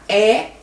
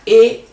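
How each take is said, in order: First: The vowel is said with an open sound. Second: The vowel is said with a closed sound. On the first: The speaker calls it right. "elas têm o som aberto" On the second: The speaker calls it wrong. "Não diga"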